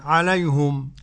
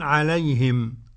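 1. الحركة بعد الهاء ضمة. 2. الحركة بعد الهاء كسرة.

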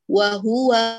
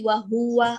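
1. الحركة الأولى قصيرة وتُفتح مباشرة. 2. الحركة الأولى تطول وتختلط بالصوت الذي بعدها. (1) "وهو افتحي على طول بدون ما تتكي على الحرف" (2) "لا تقولي وهو"

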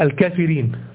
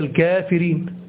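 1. الحركة الأولى قصيرة، من غير الألف الطويلة. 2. الحركة الأولى صوت ألف طويل. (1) "لو هو نطقها حسب النطق الإعلامي بتاع الإملاء بتاعه" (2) "لكن هي الكافرين"

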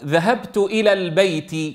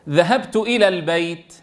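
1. تنتهي الكلمة الأخيرة بحركة قصيرة. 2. تنتهي الكلمة الأخيرة بحرف ساكن. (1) "التحريك" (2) "الإسكان"

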